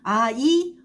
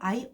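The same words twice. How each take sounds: First: The vowels are said as two separate vowels. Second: The vowels glide together into one falling diphthong. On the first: "이렇게 되면 두 개의 단모음으로 발음을 하게 되는 것이고요" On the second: "말 그대로 아이, 어이, 오이, 우이 이런 발음입니다"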